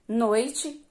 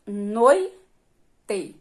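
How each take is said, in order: First: Said in the usual way. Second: "noite" split into loud NOI, pause, te; syllable by syllable. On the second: Shown as a demonstration. Teacher sounding out syllables for children, "noite" pulled apart. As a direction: punch NOI, then drop to te in "noite".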